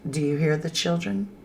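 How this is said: It is said as a flat telling statement.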